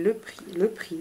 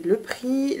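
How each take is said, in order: First: Hushed whisper building suspense. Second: Said in the usual way. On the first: Acted. Teasing viewers before the price, in a whisper. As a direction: whisper it like a secret drumroll.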